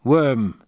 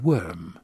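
First: Worm after a loaded pause, said with a falling tune; hesitant word. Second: Worm repeated slowly and softly, as a thought turned over; quiet echo. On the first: Acted. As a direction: hold back, then let worm drop. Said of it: "he hesitated". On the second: A narrator's reading. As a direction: slowly weigh the word worm. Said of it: "He said worm".

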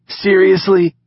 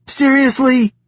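First: High, loud indignant seriously; first protest, raised and hurt; disbelief. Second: Even higher, falling seriously, more exasperated; rising disbelief. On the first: Knox to the laughing pair, high loud disbelief. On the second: Knox repeating himself at the teasers, higher exasperated disbelief. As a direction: push the protest up further and drop it. Knox protests their laughter. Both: A narrator's reading.

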